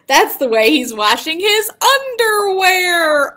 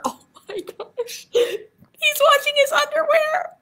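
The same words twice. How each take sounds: First: Loud, high sung punch line; sung, belt it, climbing up to a held last word; sung, song's big finish. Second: Breathy gasp into a very high squeal; giggly mock shock. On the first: Shown as a demonstration. Teacher singing the silly last line to children, belting. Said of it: "share with you a gorilla song". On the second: Teacher reacting to gorilla washing underwear, mock shock. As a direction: squeal in scandalised, laughing disbelief.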